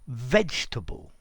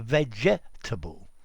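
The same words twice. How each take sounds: First: A middle syllable is dropped from the word. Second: Every syllable of the word is pronounced fully. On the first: "we say vegetable" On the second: "as opposed to vegetable"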